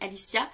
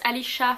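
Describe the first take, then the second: First: The name is pronounced the French way. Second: The name is pronounced the English way. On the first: "mais en vrai elle s'appelle Alicia" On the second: "je le prononce en anglais"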